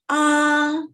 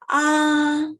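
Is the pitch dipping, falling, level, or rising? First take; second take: level; level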